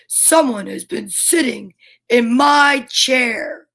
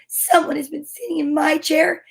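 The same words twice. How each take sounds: First: It is said in a great big voice. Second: It is said in a wee little voice. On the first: The biggest character is speaking. "in this great big voice" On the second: The smallest character is speaking. "in his wee little voice"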